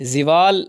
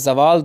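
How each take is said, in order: First: The first vowel is i. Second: The first vowel is a. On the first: The speaker calls it wrong. "दुरुस्त नहीं है" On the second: The speaker calls it right. "दुरुस्त है"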